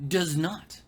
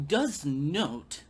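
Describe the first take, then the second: First: "does" punched with a rising tune; "does not" emphatic, rising; stress on does. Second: "does not" slower and falling; firm, final "does not"; stress on does. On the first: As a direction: lean on "does" and lift it. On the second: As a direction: land heavily on "does", falling. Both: Real, not acted.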